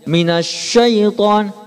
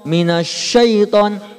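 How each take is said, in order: Both takes have the same delivery.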